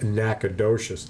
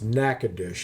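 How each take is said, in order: First: The name is sounded out as it is spelled. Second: The name is said the local, unspelled way. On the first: The speaker calls it wrong. "if you were to you know sound it out" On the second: The speaker calls it right. "That's the way it's pronounced"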